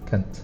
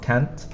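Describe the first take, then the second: First: The vowel is a weak, reduced 'uh' sound. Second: The vowel is a full, open 'a' sound. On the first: The speaker calls it right. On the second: The speaker calls it wrong.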